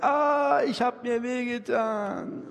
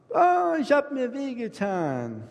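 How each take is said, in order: First: Put-on high wailing child's cry, stretched slow; a little child crying to papa that it got hurt; whining hurt child. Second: Put-on high child's wail, stretched slow; whining hurt child. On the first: Small child comes to papa and wails about the pain, high and slow. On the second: Same child wails to mama about the pain, high and slow. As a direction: cry out to mama that it hurts.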